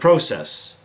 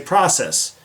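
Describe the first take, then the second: First: It is said with a Canadian pronunciation. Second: It is said with an American pronunciation. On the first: "instead of" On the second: "I can speak American"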